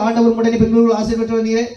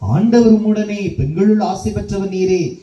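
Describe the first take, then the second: First: It is rushed and slurred at high speed. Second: It is said slowly and melodiously, like a song. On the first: The prayer is said mechanically without feeling. The speaker calls it wrong. "Jet ஸ்பீட்ல போய்கிட்டு இருக்கும் வண்டி" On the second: The prayer comes from the heart. The speaker calls it right. "அழகாக அற்புதமாக ஒரு பாடலாகவும்"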